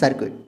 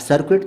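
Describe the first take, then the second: First: The u vowel is silent in the word. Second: The u vowel is sounded in the word. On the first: The speaker calls it right. "आपको पढ़ना है सर्किट, यू silent" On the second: The speaker calls it wrong. "अब सर्किट तो नहीं पढ़ सकते"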